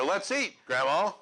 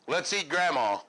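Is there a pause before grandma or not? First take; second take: pause; no pause. First: There is a pause before grandma. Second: There is no pause before grandma.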